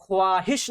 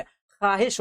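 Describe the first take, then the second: First: ख्वाहिश with the w sounded, "khwaahish"; wrong spelling pronunciation. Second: ख्वाहिश said as "khaahish"; ख्वाहिश with kh straight into long aa; silent w. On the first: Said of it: "ख्वाहिश नहीं होती है". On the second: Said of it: "ख्वाहिश होती है". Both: Shown as a demonstration.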